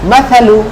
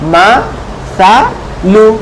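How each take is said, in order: First: The syllables are run together quickly. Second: Each syllable is said separately with pauses.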